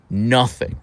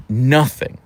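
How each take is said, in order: Both takes have the same delivery.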